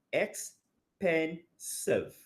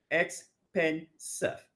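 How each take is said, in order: First: Very slow, drawn-out expensive; slow syllable demo. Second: Expensive drawn out slowly; slow syllable demo. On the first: Teacher stretching expensive for students to count syllables. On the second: Teacher repeating expensive slowly for counting. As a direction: say expensive slowly, one beat per syllable. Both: Shown as a demonstration. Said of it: "about three syllables there".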